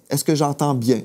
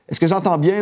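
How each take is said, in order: First: The question sounds warm and gentle. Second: The question sounds sharp and defensive. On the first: The speaker sincerely wants to understand the partner. The speaker calls it right. "un ton rempli d'amour" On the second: The speaker is challenging the partner. The speaker calls it wrong. "on ne veut pas être sur la défensive"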